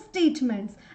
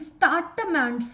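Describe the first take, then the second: First: The first syllable sounds like stay. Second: The first syllable sounds like star. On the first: The speaker calls it right. "I want to use the word statements" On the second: The speaker calls it wrong. "I'm saying startaments"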